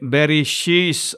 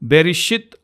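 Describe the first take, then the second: First: It has sh then a final s sound. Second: It has sh then a final t sound. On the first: The speaker calls it wrong. "లేకపోతే బెరిషీస్ అనేవారు" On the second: The speaker calls it right. "బెరిషిత్ అన్నదాన్ని"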